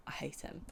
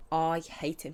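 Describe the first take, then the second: First: Whispered hate. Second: Said in the usual way. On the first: Real, not acted. First take of hating Ben.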